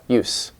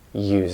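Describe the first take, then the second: First: The final sound is a voiceless s. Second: The final sound is a voiced z. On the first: It is used as a noun. "Noun, 명사, use, voiceless" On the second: It is used as a verb. "it's voiced. This is sound like, like a Z"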